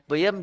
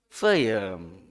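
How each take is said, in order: First: The word begins with a p sound. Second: The word begins with an f sound. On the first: The speaker calls it right. "Yang harusnya P" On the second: The speaker calls it wrong. "berusaha meng-F kan ya peyem jadi feyem"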